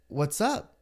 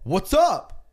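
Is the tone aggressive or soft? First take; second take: soft; aggressive. First: It is said in a soft tone. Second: It is said in an aggressive tone.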